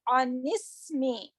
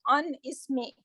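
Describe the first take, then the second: First: The final n links straight into the next word. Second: The two words are said separately, not linked. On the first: The speaker calls it right. "We are saying anismi" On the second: The speaker calls it wrong. "we are not saying"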